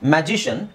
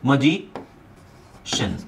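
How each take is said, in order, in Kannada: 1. ಮೊದಲ ಸ್ವರ 'cat' ತರ ಇದೆ. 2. ಮೊದಲ ಸ್ವರ ಚಿಕ್ಕ, ತಟಸ್ಥ 'uh' ಶಬ್ದ ಇದೆ. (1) "ಮ್ಯಾಜಿಷನ್ ಅಥವಾ ಮಜಿಷನ್ ಅಂತ ಹೇಳ್ಬೋದು" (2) "ಕರೆಕ್ಟ್ ಪ್ರೊನೌನ್ಸಿಯೇಷನ್ ಬಂದು ಮ ಜಿ ಮಜಿಷನ್"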